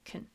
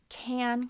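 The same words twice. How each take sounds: First: The word has a reduced schwa vowel. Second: The word has a full vowel.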